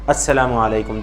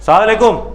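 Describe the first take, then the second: First: Every syllable is pronounced fully and carefully. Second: The words are clipped and blurred together harshly. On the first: It is a real prayer for peace. The speaker calls it right. "सलाम करिए और दुआ दीजिए" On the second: It sounds like throwing a stone, with no blessing. The speaker calls it wrong. "सलाम का अंदाज लग रहा है पत्थर मार रहा है ये। अल्फाज ही गलत हैं"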